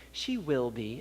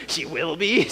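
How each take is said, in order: First: Quiet, low retold reassurance; imitating a hushed, noncommittal answer; guarded reply. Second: Disbelieving questioning repeat, rising at the end; mildly mock-alarmed "will be?"; incredulous echo. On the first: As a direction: drop to a soft, low, careful answer. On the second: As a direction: echo it back as a doubtful question. Repeats the lady's reply in disbelief.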